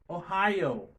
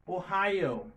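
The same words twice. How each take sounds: The two takes are said the same way.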